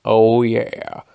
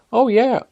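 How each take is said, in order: First: Loud, drawn-out agreement at normal pitch. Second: Very high, loud agreement; high-voiced coworker. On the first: Retold or imitated. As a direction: imitate a second coworker chiming in. Second coworker agreeing, contrasting voice. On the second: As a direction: imitate an eager high-pitched coworker. First of two coworkers agreeing.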